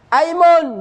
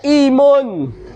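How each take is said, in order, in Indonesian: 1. Kata itu dimulai dengan vokal 'a'. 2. Kata itu dimulai dengan vokal 'i'. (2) "jangan dibaca imun"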